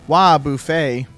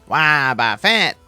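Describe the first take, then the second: First: The ending is said like 'buffet' table. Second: The ending is not said like 'buffet' table.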